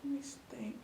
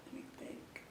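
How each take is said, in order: First: Said in the usual way. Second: Whispered under the breath; whispering. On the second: Real, not acted. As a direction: whisper it to yourself. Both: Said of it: "thinking aloud, repeated".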